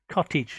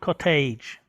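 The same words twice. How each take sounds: First: The final syllable is pronounced 'idge'. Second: The final syllable is not pronounced 'idge'. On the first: The speaker calls it right. "we sound idge, idge in English, so we say cottage" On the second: The speaker calls it wrong. "not cottage"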